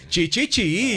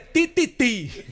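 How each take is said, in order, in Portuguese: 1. O t chiado, parecido com ch, tem um tom cantado. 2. O t simples tem um tom plano, sem cantar. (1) "fala chiando e cantando" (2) "pra nós aqui é Tititi"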